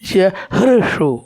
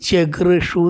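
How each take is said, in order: First: The middle consonant is an h sound. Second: The middle consonant is a g sound. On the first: The speaker calls it right. "ശരിക്കുള്ള വാക്ക് തന്നെ ഉച്ചരിക്കണം" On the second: The speaker calls it wrong. "ജഗൃഷു എന്നൊക്കെ വായിക്കും"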